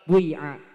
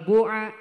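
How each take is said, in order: First: The first vowel blends u into i. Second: The first vowel is a pure u sound. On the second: "ikhlasul domi"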